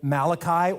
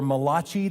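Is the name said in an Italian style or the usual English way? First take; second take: English; Italian. First: The name is said the usual English way. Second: The name is said with an Italian-sounding pronunciation.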